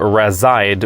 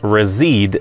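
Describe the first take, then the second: First: It is pronounced as the English spelling suggests. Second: It is pronounced the Swedish way. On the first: It follows how the word is spelled in English. "makes more sense considering the English spelling" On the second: It follows the name's Swedish origin. "is a correct way to pronounce the word"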